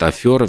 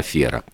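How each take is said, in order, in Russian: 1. Второй гласный произносится как 'yo'. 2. Второй гласный произносится как 'e'. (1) "иногда вставляют Ё куда не нужно. Например, говорят афера" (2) "вместо афера"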